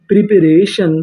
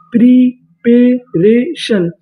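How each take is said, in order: First: Said in the usual way. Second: preparation stretched out slowly, syllable by syllable; slow drawn-out word. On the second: Shown as a demonstration. Teacher to students, drawing preparation out slowly. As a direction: draw out preparation slowly for the class. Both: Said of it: "तो meaning बनी रे".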